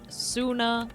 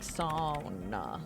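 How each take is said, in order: First: The first vowel sounds like 'oo'. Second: The first vowel sounds like 'ow'. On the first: The speaker calls it wrong. "I know I'm mispronouncing it" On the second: The speaker calls it right. "It's something like sauna"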